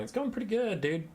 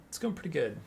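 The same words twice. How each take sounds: First: High, bright fake cheer; upbeat fake cheer. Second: Said in the usual way. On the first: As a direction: sell it like all is great. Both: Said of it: "Wait, no, it's not".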